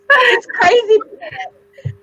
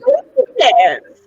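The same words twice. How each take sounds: First: Much higher, slow and stretched; drawn-out high exclamation; excited. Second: Laughing it out, a touch of a yell; real laughter breaking through. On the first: Repeating it for emphasis. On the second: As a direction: laugh through the words, louder. Laughing at her own situation. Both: Real, not acted.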